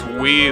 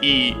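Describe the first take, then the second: First: It begins with a w sound. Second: It begins directly with a vowel. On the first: This is the old reading that no longer exists. "instead of pronouncing it as we" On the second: This is the reading used today. "they pronounce it as e"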